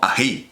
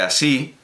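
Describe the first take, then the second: First: The middle consonant is a breathy h-like sound. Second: The middle consonant is a clear s sound. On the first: "una realización de la S de así como ají" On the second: "la S de así"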